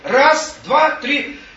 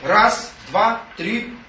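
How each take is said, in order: First: The counting is said loudest of all. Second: The counting is said more loudly. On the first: The thought becomes fully clear. "Еще громче" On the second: The thought grows stronger. "Потом говорит все громче"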